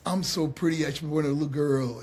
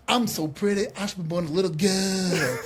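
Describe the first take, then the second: First: Understated copy of a flamboyant catchphrase; trainee's plain attempt. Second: Flamboyant strut-up-to-the-mic catchphrase, drawled out; Dusty Rhodes. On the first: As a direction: try the line without the swagger. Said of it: "I'd try to walk and do the thing". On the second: Retold or imitated. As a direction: show him how it's done, with swagger. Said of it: "a flamboyant Dusty was".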